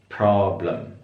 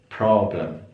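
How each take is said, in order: The two takes are said the same way.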